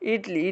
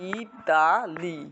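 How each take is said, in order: First: It is said with two syllables. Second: It is said with three syllables. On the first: "এটাকে উচ্চারণ করে ইটলি" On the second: "এটার ইতালি লেখে"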